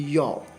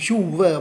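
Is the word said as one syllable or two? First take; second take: one; two. First: It is said quickly as one syllable. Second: It is said slowly as two syllables. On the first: "in the fast speech, it is not you were, it should be your" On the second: "In the slowest speech, you can say"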